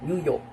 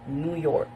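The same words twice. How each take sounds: First: It is said in a British accent. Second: It is said in an American accent. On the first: "we could pronounce it in British as uh" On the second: "while in American"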